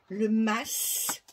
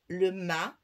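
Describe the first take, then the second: First: The word ends with an audible S sound. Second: The word ends on the vowel, no S. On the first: This is the Provençal way of saying it. "on prononce le S" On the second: This is how most French speakers say it. "Les trois quarts des Français prononcent"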